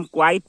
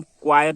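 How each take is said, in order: First: क्वाइट as kwait, one syllable; no ya before the t in क्वाइट; quite pronunciation. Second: क्वाइट as kwa-yat, two syllables; quiet pronunciation. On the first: Teacher contrasting two similar words, क्वाइट said kwait. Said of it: "इसे हम क्वाइट बोलते हैं". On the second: Teacher contrasting two similar words, क्वाइट said kwa-yat. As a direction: sound a ya before the t in क्वाइट. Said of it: "य आएगा". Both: Shown as a demonstration.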